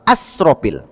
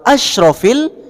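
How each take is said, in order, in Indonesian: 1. Konsonannya s. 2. Konsonannya sh. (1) "biasanya sering saya dengar" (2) "pakai huruf sya"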